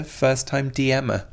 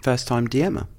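First: First-time D M er, slow with D M er stretched; first-time D M er said slowly, landing on D; stress on D M er. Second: First-time D M er echoed with a questioning rise on D M er; First-time D M er, rising at the end as a question; puzzled repeat. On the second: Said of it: "What do you mean?". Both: Shown as a demonstration.

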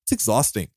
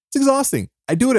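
First: Said in the usual way. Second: Much higher, exasperated "It's exhausting" with a squeak; high-pitched exasperated repeat of "It's exhausting"; exasperated squeal. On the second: Real, not acted.

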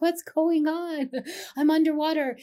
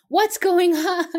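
First: Mock plaintive, softened retelling; bewildered but gentler, pitched high; gentler retold cry. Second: Loud, high, drawn-out mock outcry; exaggerated outcry. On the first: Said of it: "I said it more gently". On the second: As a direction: overdramatic cry of bewilderment, half laughing. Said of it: "I didn't say it like".

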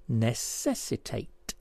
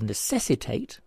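First: "necessitate" slowly, with NESS set apart; syllable by syllable. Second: Said in the usual way. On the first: Shown as a demonstration. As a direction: break "necessitate" into slow separate syllables. Puzzle answer shown by syllables.

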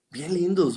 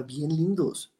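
First: "bien lindos" raised high, stress on "lindos"; emphatic repeat. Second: Said in the usual way. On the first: Shown as a demonstration. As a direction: lift "lindos" up high with a falling tune.

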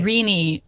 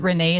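First: Renee said as REE-nee; corrected name pronunciation. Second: Renee said as ruh-NAY; name pronunciation guess. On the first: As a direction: say Renee to rhyme with beanie. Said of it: "Is that how I say her name?". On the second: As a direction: say Renee with a final "ay" sound. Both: Real, not acted.

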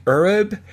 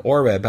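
First: "Ureb" with an opening er sound; mispronounced name. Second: "Oreb" with an opening or sound; corrected name. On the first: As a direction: say "Ureb", first vowel like "her". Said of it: "Oreb, I should say". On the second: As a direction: say "Oreb", first vowel like "or". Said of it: "I should say". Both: Real, not acted.

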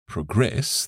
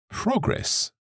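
First: "progress" stressed on the second syllable; verb stress. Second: "progress" stressed on the first syllable, high then falling; noun stress. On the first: Teacher contrasting verb with noun, "progress" stressed at the end. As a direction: say "progress" as the verb, pro-GRESS. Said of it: "the stress changes". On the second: Teacher contrasting noun with verb, "progress" stressed up front. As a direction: say "progress" as the noun, PRO-gress, drawn out. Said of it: "the noun". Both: Shown as a demonstration.

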